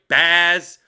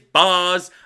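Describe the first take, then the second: First: The vowel sounds like the one in 'bad'. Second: The vowel sounds like the one in 'bod'. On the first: "Ba- like bad boy" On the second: "Maybe it's Boz"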